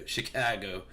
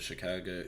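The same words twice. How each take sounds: First: "Chicago" with a flat, nasal A: shih-KAG-oh; "Chicago" said shih-KAG-oh the local way, louder; Chicago accent. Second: Said in the usual way. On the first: Shown as a demonstration. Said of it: "how you say it with the accent". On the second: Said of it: "I don't even know if that's how you say it with the accent".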